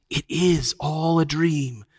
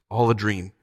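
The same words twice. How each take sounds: First: Slow, higher, drawn-out croon; lulling witch. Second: Subdued, dreamy agreement; enchanted echo. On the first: Witch lulling Jill while thrumming, slowly crooning. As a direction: spellbind with sweet certainty. Witch lulls the enchanted children. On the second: Jill agreeing with the witch, dully enchanted. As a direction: repeat it as if spellbound. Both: A narrator's reading.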